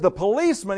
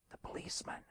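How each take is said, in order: First: Loud, high incredulous echo; upset boss. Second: Put-on very soft, secretive child's whisper; little kid's whisper. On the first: Acted. Boss repeats kid's answer, loud and upset. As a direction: raise the voice in exasperated disbelief. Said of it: "Boss is really getting upset". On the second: Little kid tells boss who is there, whispering. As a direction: whisper like a tiny kid on the phone. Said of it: "this little kid's voice".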